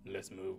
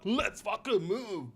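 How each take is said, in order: First: Curt Geralt. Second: Higher, slow mock Australian accent; mocking Aussie line. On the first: Shown as a demonstration. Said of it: "he would literally be like". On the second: Streamer contrasts curt Geralt with the Australian delivery, mocking in a mock Australian accent. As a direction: stretch it out like a mock Australian action hero. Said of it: "Not be like".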